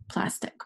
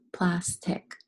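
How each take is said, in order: First: Said in the usual way. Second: "plastic" as two beats, plas, tic; syllable by syllable. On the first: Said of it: "Let's do the word plastic". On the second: Shown as a demonstration. Teacher helping pupils feel the syllables, "plastic" said in two parts. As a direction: pause between the halves of "plastic". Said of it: "Fill your syllables".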